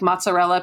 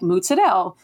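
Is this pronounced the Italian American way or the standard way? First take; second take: standard; Italian American. First: It is pronounced in the standard Italian way. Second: It is pronounced in Italian American dialect. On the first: "instead of saying like mozzarella" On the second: "people say like mozzarella"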